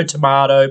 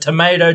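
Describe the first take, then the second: First: Tomato said as to-MAH-to, broad ah sound; tomato the British way, MAH in the middle. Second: Tomato said as to-MAY-to, long ay sound; tomato the American way, MAY in the middle. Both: Shown as a demonstration. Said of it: "but tomato, tomato".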